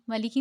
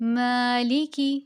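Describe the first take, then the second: First: The long vowel is cut short. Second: The long vowel is held for two counts. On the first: The speaker calls it wrong. "मालिकी नहीं कहना" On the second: The speaker calls it right. "टू count इसकी लेंथ है"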